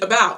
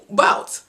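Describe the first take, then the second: First: The word is said with its first syllable. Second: The word is said without its first syllable. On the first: This is the American English form. "in America, English, we said about" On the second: This is the Jamaican patois form. "we use bout"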